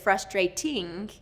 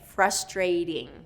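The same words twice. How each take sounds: First: The second T is a clear, crisp T. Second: The second T is a quick D-like tap. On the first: The speaker calls it wrong. "we don't pronounce it as frustrating" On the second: The speaker calls it right. "native speakers will change that T to a D"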